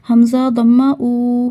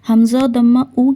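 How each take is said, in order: First: The final vowel is drawn out long. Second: The final vowel is kept short. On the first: The speaker calls it wrong. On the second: The speaker calls it right.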